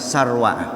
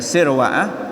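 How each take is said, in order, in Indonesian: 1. Suku kata pertama diucapkan dengan vokal 'a'. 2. Suku kata pertama diucapkan dengan vokal 'i'. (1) "boleh juga di fathah jadi Sarwa'ah" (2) "boleh di kasroh sinnya berarti Sirwa'ah"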